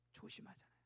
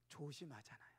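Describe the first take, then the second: First: Whispered echo of 조심하잖아요. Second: Softer, falling. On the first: Preacher echoing to congregation, whispered. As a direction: breathe 조심하잖아요 as a hushed aside. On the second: Preacher reminding congregation after a ticket, soft and falling. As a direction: say it gently as a reminder. Repeating the point softly. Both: Shown as a demonstration.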